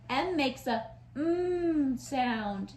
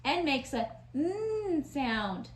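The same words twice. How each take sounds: First: "mm" hummed with closed lips; M sound. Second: "mm" said as an n hum with an open mouth; N sound. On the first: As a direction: hum "mm" slowly, lips closed. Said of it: "See how I close my lips?". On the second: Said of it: "but with our mouth open". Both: Shown as a demonstration.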